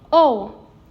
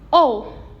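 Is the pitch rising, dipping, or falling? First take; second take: falling; falling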